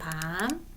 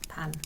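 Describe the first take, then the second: First: The vowel is said long. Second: The vowel is said short. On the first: It means chestnut. "먹는 밤. 이렇게 소리 내시면 됩니다" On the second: It means night. "밤에 짧은 소리죠?"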